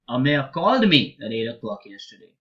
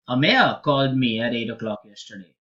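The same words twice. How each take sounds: First: The stress falls on the word called. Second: The stress falls on the word Amir. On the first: The contact was a call, not a letter or visit. "So I did not write a letter. I did not send a message across" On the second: Nobody else but this person called. "with the stress on my name"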